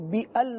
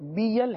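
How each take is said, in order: First: The sounds are split into two syllables. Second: The sounds run together as one syllable. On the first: The speaker calls it wrong. "اس کو بی ال نہیں پڑھیں گے" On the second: The speaker calls it right. "ہاں بیل ہے, صحیح نا"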